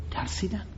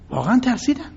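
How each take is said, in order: First: Said in the usual way. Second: واقعاً lifted high and leaned on; emphatic واقعاً; stress on واقعاً. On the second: Shown as a demonstration. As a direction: hit واقعاً hard, then let ترسیدن fall.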